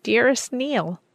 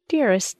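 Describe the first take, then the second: First: Slow, higher joyful cry on dearest; cried out slowly. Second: A lightly voiced joyful cry; cried out. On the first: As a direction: draw out dearest as a happy cry. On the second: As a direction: call the name out fondly. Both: A narrator's reading. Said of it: "I cried".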